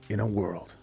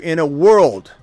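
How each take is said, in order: First: It is said in a deep movie-trailer voice. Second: It is said in his normal reading voice.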